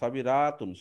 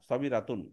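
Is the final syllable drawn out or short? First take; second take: drawn out; short. First: The final syllable is stretched out long. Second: The final syllable is kept short. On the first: The speaker calls it wrong. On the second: The speaker calls it right.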